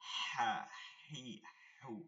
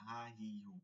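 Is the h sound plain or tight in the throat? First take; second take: tight; plain. First: The h is squeezed tightly in the throat. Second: The h is a plain breathy sound. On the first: The speaker calls it right. "এখানে হবে কি" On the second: The speaker calls it wrong. "আমি কোনো প্রয়োজনই করতেছি না"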